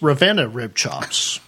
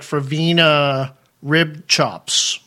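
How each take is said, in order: First: The name starts with an R sound. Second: The name starts with an F sound. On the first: The speaker calls it right. "you don't enunciate the F" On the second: The speaker calls it wrong. "it looks on paper, it looks like Fravina Rib Chops"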